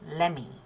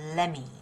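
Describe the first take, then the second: First: The T sound blends into the following M. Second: The T sound blends into the following M.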